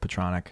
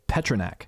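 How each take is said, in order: First: It is said so it rhymes with 'electronic'. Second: It starts with 'pet' and does not rhyme with 'electronic'. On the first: The speaker calls it right. "it's like electronic" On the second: The speaker calls it wrong. "most people pronounce it Pet- Petronak"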